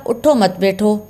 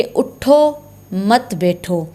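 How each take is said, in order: First: उठो मत बैठो run together as one phrase; no pause after उठो. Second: उठो, full pause, then मत बैठो falling away; pause after उठो. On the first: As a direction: go straight from उठो into मत without stopping. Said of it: "अगर ठहरा ना जाए तो क्या हो जाएगा जुमला". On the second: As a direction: stop firmly after उठो before saying मत बैठो. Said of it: "तो उठो पर, उठो पर लाजमी ठहरना चाहिए". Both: Shown as a demonstration.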